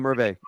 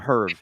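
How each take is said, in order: First: The final vowel sound is pronounced. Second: The final vowel sound is dropped. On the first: The speaker calls it right. "call him Hervé" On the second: The speaker calls it wrong. "you're mispronouncing Hervé's name"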